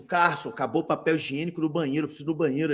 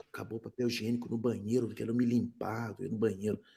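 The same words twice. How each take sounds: First: Said in the usual way. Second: Mumbled low and soft, shy plea; much lower and softer, timid ask; meek request. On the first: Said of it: "Eu comecei a fazer assim". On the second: Retold or imitated. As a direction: ask under your breath, embarrassed.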